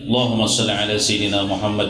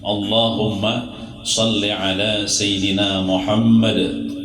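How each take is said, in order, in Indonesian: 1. Vokal awal dihilangkan, langsung mulai dari huruf l. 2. Vokal awal jelas diucapkan sebelum huruf l.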